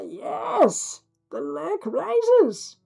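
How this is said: The voice sounds muffled behind cupped hands. The speaker calls it right.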